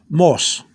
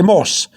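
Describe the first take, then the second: First: "mos" with two blended O's; second O sounded. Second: "mos" with one O, like English moss. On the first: Teacher giving learners the correction, double O in "mos". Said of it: "You have to have that O, the second O". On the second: Teacher warning learners of the mistake, English-style "mos". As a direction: say "mos" as the English word, single vowel. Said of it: "you're wrong". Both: Shown as a demonstration.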